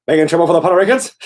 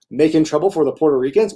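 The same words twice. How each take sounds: First: Slurred, indecipherable rush through "Making trouble for the Puerto Ricans"; "Making trouble for the Puerto Ricans" rattled off as mush, imitating a botched accent; rapid-fire garble. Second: Said in the usual way. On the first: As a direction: mash "Making trouble for the Puerto Ricans" into one fast blur. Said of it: "this really rapid fire thing that was indecipherable". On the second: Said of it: "what I'm saying is".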